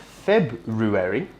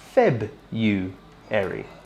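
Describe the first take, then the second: First: The R sound in the middle is pronounced. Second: The R sound in the middle is dropped. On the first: The speaker calls it wrong. "not February" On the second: The speaker calls it right. "but instead Febuary"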